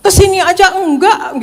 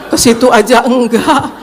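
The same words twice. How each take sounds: First: The snap at her husband that she held back; pretend snap back. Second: Retelling her own reply through a laugh; wife laughing at the accusation, half exasperated; laughing disbelief. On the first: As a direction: fire it back as if finally losing patience. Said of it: "rasanya tuh udah mau bentak juga". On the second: Retold or imitated. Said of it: "Ya Tuhan".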